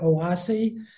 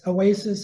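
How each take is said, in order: First: The word is said with a Spanish pronunciation. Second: The word is said with an English pronunciation. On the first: "the Spanish pronunciation because they call it Oasi" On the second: "it's Oasis in English"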